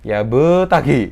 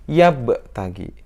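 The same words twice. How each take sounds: First: The b bounces fully like a vowel. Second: The b bounces lightly, only halfway. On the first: The speaker calls it wrong. "itu juga salah" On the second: The speaker calls it right. "Yang betul gimana? ... Setengah saja"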